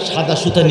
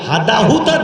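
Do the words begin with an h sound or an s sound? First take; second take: s sound; h sound. First: Both words begin with an s sound. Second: Both words begin with an h sound.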